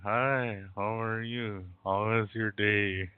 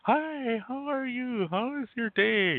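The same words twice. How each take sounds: First: The voice sounds low and subdued. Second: The voice sounds bright and cheerful. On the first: Something is bothering her. "You don't sound like yourself" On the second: Everything is fine with her. "Normally your voice is different"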